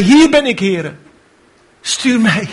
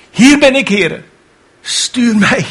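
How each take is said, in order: First: High eager answer. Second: High eager answer again; volunteer with fire. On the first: Isaiah answering God's call, high and eager. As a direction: jump up and volunteer. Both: Retold or imitated. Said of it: "hief zijn hand op en zei".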